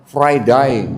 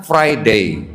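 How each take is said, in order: First: "Friday" the Australian way, ending like "die"; Australian "Friday" with a wide "eye" ending; Australian pronunciation. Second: "Friday" the English way, ending in "day"; British-English "Friday" with an "ey" ending; English pronunciation. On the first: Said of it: "Orang Australia ngomongnya apa?". ("Friday" logat Australia, berakhir "dai") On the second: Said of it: "Orang Inggris ngomongnya". ("Friday" logat Inggris, berakhir "dei") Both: Shown as a demonstration.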